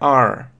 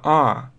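First: It ends with an audible r sound. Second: It is a pure ah with no r. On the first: "в американском иногда просто добавляют Р" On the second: "британский вариант чистый А"

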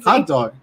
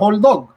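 First: The first word ends with a clear t sound. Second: The first word ends with an l sound.

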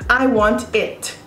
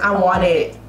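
First: The T sounds are clearly pronounced. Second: The T sounds are dropped, American style.

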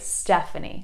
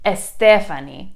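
First: The name starts directly with the s sound. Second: The name starts with an added vowel sound. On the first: The speaker calls it right. "take off the E at the beginning" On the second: The speaker calls it wrong. "That's like Spanish"

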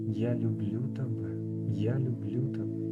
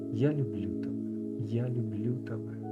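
No difference in how they are said.

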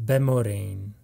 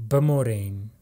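No difference in how they are said.

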